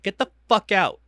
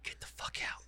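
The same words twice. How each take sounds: First: Loud, higher, annoyed order; retold yell. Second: Retold order in a whisper; whispered repeat. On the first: Annoyed parent ordering a staring kid out, yelled. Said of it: "I yelled at Rin the other day". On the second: Parent repeating the order to leave, whispered. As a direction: drop to an unvoiced, very soft whisper.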